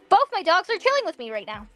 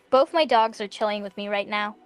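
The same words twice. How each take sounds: First: It is said excitedly, like an exclamation. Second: It is said flatly, without excitement.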